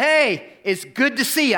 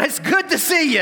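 First: High mock-cheerful welcome, not quite meant; forced cheer. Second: Much higher, hammed-up sing-song welcome; overdone fake cheer. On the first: Pastor welcoming the man he thinks hates him, forced cheer. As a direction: put on a bright greeting you don't feel. Nervous welcome he admits lying. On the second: Pastor mocking his own false welcome, hammed-up cheer. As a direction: oversell the greeting like an obvious lie. Replays his lie, exaggerated.

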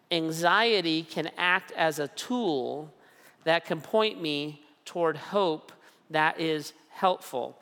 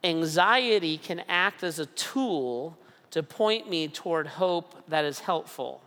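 First: Slow restatement with pauses; deliberate repeat with pauses; slow, repeated for emphasis. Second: Slow, weighty statement of the principle; measured declaration; slow and deliberate. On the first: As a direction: say it again, slowly, letting it sink in. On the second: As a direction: lay it out word by word. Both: Shown as a demonstration. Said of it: "One principle is this".

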